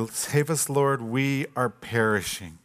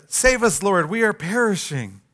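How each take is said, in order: First: Softer, slowed despairing plea; quiet despair. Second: Panicked plea. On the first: Disciples telling Jesus they are already dying, hopeless. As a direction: give up hope as you say it. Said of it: "they take things too far". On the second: Disciples panicking in the storm. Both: Retold or imitated.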